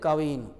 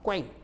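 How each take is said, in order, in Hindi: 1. एक स्वर k और w को अलग करता है। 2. k और w आपस में जुड़े हुए होते हैं। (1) "कवीन नहीं" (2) "उसको उच्चारण एक साथ करने पर क्वीन"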